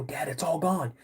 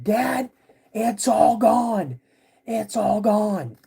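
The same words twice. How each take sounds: First: Toned-down retold plea; lightly voiced worried kid; kid reporting to dad. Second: High, loud, drawn-out cry; slow, high-pitched retold yell; yelling for dad. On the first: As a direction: tell dad the bad news without yelling. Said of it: "I go". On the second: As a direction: imitate a kid yelling in alarm to dad. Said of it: "I just start yelling".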